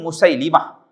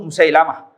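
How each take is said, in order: First: The vowel after the l is 'i'. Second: The vowel after the l is 'a'. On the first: The speaker calls it right. "sebutan yang betul Musailimah" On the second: The speaker calls it wrong. "Ada orang sebut Musailamah"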